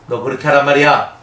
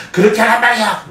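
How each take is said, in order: First: Louder mock scolding of a child; a parent raising the voice at a child. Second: Higher and louder mock yell, with a laugh; yelling parent. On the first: A parent scolding a disobedient child, louder. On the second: A parent losing their temper at a child, mock yell. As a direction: escalate the scolding to a shout. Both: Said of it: "어디까지 목소리를 높여야 돼요".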